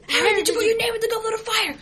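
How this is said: It is asked in an aggressive tone.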